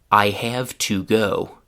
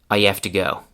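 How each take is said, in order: First: Every word is said fully and carefully. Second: The words are heavily reduced and run together. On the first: "starting with the most classroom one" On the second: "ending with one that is very chewing gum-like"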